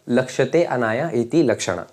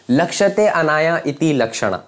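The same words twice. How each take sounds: First: "लक्ष्यते, अनाया, इति, लक्षणा" repeated word by word, falling away to "Lakshana"; a calm recap so it sticks; softer repeat. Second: Chanted, "लक्ष्यते, अनाया, इति, लक्षणा" spaced word by word, "लक्ष्यते" rising and punched; chanted, recite the formula like a rhyme for students; mnemonic chant. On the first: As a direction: run the memory words again quietly, settling down. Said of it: "याद कर लो यहीं पे". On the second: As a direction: chant the memory words one by one, first one up. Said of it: "आपको सिर्फ लक्ष्यते डालना है". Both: Shown as a demonstration.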